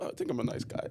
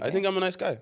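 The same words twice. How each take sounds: First: It sounds timid and unsure. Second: It sounds bold and confident.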